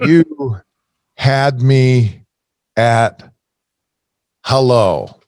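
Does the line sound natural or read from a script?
scripted. It sounds flat, like reading words off a page. The speaker is only reciting the script. "I'm reading my script here"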